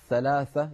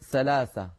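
First: The word is said with th sounds. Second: The word is said with s sounds. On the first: The speaker calls it right. "بدل ثلاثة" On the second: The speaker calls it wrong. "تحرفه إلى حرف السين، فيقولون"

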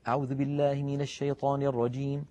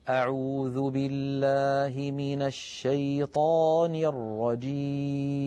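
First: It is recited quickly. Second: It is recited slowly and calmly.

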